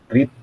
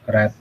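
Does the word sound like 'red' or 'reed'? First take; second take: reed; red. First: The vowel is long, like 'reed'. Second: The vowel is short, like 'red'. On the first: It is the present form of the verb. "kalau ini read" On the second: It is the past form of the verb. "kalau verb dua nya jadi read"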